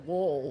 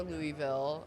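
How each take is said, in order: First: LOUISVILLE swallowed into "LUH-vul"; mock-native LOUISVILLE, slurred as "LUH-vul"; supposedly correct pronunciation. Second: LOUISVILLE said "LOO-ee-ville"; alternative pronunciation. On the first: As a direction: squash LOUISVILLE to two mushy syllables, "LUH-vul". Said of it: "You're supposed to pronounce". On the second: Shown as a demonstration. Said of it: "or Louisville".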